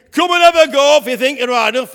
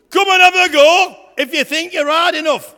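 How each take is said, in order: First: Loud taunting bellow; giant's shout. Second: Booming shouted challenge, much louder; Goliath's challenge. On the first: Goliath shouting his dare at young David, loud taunting roar. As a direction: roar the dare across the valley. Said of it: "And he shouted again". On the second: Goliath taunting the Israelite army, loud bellowing shout. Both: Acted.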